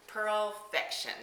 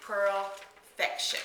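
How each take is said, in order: First: Pearlfection said again slowly and carefully, stressed on PEARL; slow repeated name. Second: Said in the usual way. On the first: Shown as a demonstration. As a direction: repeat Pearlfection slowly, leaning on the first syllable.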